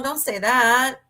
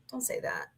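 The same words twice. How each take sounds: First: Said in the usual way. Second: Softer don't say that. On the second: Real, not acted. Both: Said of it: "repeats softly".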